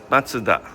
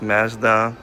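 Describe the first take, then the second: First: It is said with a Japanese pronunciation. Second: It is said with a Canadian pronunciation. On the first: "here in Japan we pronounce Matsuda" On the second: "in Canada we pronounce Mazda"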